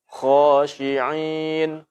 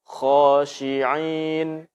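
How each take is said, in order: The two takes are said the same way.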